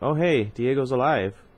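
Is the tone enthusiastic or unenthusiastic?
unenthusiastic. It is said without enthusiasm.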